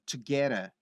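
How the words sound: Spoken in an American accent with a flapped T. "mas com sotaque americano"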